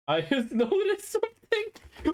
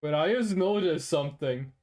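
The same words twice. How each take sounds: First: Laughing it out, much higher; amused disbelief breaking into a laugh. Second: Said in the usual way. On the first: Real, not acted. Realizes he got hustled, laughing.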